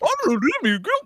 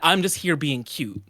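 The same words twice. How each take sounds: First: It is said in a put-on Michael voice. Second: It is said in his own normal voice.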